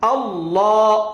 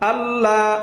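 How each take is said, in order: First: The L sound is full and heavy. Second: The L sound is thin and light. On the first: The speaker calls it right. "আল্লাহ এমন" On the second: The speaker calls it wrong. "এমন না"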